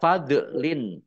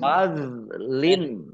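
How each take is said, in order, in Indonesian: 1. Konsonan tengah dilepas dengan pantulan yang bergema. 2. Konsonan tengah ditahan tanpa pantulan sama sekali. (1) "jangan dipantulkan. Jangan dibaca, ya, jangan dibaca fadlin, ya salah" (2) "Fadlin, ya"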